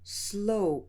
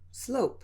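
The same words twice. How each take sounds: First: The word is said slowly and carefully. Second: The word is said at a normal pace. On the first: "pronounce it slowly using a clear respelling" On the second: "then at normal speed"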